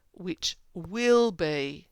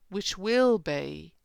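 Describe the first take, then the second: First: Very slow, weighty "will"; drawn-out "which will be", "will" stressed; emphatic reading. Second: Slow, firm "will" with a rise; slow, insistent "which will be"; emphatic reading. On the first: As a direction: stretch and press "will". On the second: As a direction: lean on "will". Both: Shown as a demonstration. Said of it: "emphatic or definitive".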